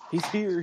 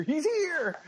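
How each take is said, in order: First: Said in the usual way. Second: Squeaky high repeat; high-pitched echo. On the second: Pretend. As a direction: jump way up high on here. Co-host greeting, echoed back.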